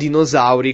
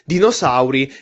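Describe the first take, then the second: First: The s is a voiced buzzing sound. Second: The s is a voiceless hissing sound. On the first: The speaker calls it wrong. "con la S che sembra quasi una Z" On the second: The speaker calls it right. "si dice"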